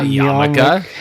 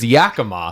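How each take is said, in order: First: The syllables are in the order ya-ma-ka. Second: The syllables are in the order ya-ki-ma. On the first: The speaker calls it wrong. "not Yamaka" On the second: The speaker calls it right. "It's Yakima"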